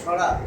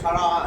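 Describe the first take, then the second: First: The word ends after two syllables, shara. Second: The word has an extra final syllable, shara'a. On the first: "অনেকে বলে না সরা" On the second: "আসলে সরা আ"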